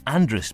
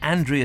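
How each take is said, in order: First: The name is clipped to a short 'Andrus' ending. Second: The name is said in its plain, standard form. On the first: The speaker wants to sound local. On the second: This is the ordinary way of saying it.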